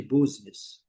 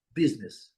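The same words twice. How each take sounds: First: "business" said as "BOOZ-nes", with a u; wrong pronunciation. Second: "Business" as "BIZ-nis"; correct English pronunciation. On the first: Teacher rejecting a mistake, u-sound "business". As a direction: mispronounce "business" with a Portuguese u. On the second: Teacher correcting the mistake, English "Business". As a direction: say "Business" with i, not u. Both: Shown as a demonstration. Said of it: "Nada de business".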